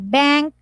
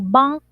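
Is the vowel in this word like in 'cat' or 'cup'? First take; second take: cat; cup. First: The vowel sounds like the one in 'cat'. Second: The vowel sounds like the one in 'cup'. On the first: The speaker calls it right. "but you say bank" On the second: The speaker calls it wrong. "you don't say bunk"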